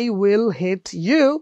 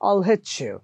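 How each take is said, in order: First: Each word is said fully and separately. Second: The words run together quickly without gaps.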